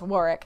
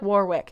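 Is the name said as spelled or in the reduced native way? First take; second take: reduced native; as spelled. First: The name is said in its shorter native form. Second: The name is said just as it is spelled. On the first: The speaker calls it right. "I know it's Warwick" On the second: The speaker calls it wrong. "It looks like Warwick. And my brain says Warwick"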